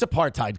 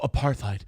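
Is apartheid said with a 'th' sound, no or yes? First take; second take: no; yes. First: It is said with a plain t sound. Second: It is said with a th sound. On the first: The speaker calls it right. "It's apartheid" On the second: The speaker calls it wrong. "We don't need to sit here and go"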